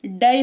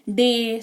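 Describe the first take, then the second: First: डे said wrongly as "dai", like "die"; mispronounced with Y. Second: Said in the usual way. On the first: Shown as a demonstration. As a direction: voice the Y so डे rhymes with "eye". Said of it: "ऐसा नहीं हो रहा है". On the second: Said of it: "ऐसे उच्चारण हो रहा है".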